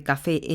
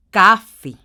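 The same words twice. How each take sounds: First: Café said ca-FÉ, stress on the last syllable; café, plain, stressed on FÉ; café with stress on the final fe; correct stress on fe. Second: Café said as CÁ-fe, first syllable loud; café with a loud falling CA; wrong stress on first syllable. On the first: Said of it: "en lugar de café". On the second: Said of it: "Si la tiene en la C A". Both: Shown as a demonstration.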